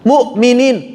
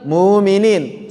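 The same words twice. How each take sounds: First: A glottal stop comes before the long vowel. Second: The glottal stop is dropped and the vowel lengthened. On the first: It is the harder form to say. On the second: It is the easier form to say.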